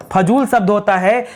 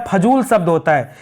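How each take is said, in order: Both takes have the same delivery.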